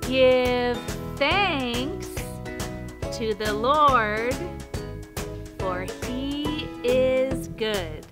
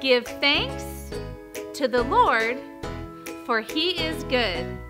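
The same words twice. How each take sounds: First: It is said very slowly. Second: It is said at normal speed and volume.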